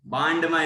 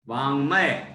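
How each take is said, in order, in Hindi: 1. बीच का व्यंजन कठोर 'd' ध्वनि है। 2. बीच का व्यंजन नासिक्य 'ng' ध्वनि है। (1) "बांडमय नहीं है, नहीं तो कोई कोई डा पढ़ देता है उसको" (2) "नाक से आवाज आएगी"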